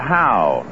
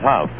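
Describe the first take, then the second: First: The name rhymes with 'cow'. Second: The name rhymes with 'rough'. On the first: This is how others said the name. "They pronounced it Howe" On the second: This is how the name is actually said. "like in rough. And tough"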